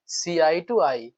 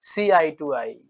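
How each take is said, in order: First: Very slow, each word spaced out; "see eye to eye" drawn out slowly word by word; slow repeat. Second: Said in the usual way. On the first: Shown as a demonstration. Teacher repeating the idiom very slowly for students. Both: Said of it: "एकदम देख करके ही EDM को".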